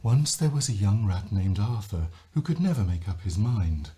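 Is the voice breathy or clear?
breathy. The voice is breathy, light and loose.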